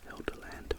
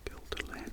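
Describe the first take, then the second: First: The word begins with an H-like sound. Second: The word begins with a hard G sound.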